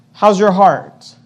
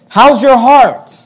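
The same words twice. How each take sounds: First: Said in the usual way. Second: Slower, higher and louder, "your" stressed hard; "How's your heart?" pressed on "your", raised and loud; pointed question. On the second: Acted. Pastor challenging the congregation, loud searching question. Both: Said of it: "the question is this".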